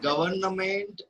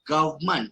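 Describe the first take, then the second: First: The first syllable has a weak vowel. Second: The first syllable has a strong vowel. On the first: The speaker calls it wrong. "Not government" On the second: The speaker calls it right. "strong A"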